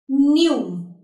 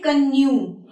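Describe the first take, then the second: First: No K sound is heard at the start. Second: A K sound is heard at the start. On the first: The speaker calls it right. "I'll just simply say" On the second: The speaker calls it wrong. "I won't say canoe"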